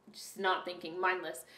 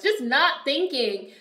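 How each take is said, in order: First: "Just not thinking" dropped much softer and low; quiet repeat. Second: "Just not thinking" drawn out slowly, higher and louder; emphatic. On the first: Real, not acted. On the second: Retold or imitated. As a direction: lean hard on each word of "Just not thinking". Mocking own mindlessness.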